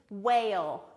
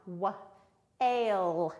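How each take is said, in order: First: Said in the usual way. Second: "Wa-, ale" in two separate sounds with a gap; teacher slowly sounding out "Wa-, ale"; sounded out. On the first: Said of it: "The W H goes together". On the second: Shown as a demonstration. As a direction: break the word into "Wa-" then "ale". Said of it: "It makes one sound".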